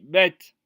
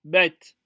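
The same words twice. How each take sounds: Both takes have the same delivery.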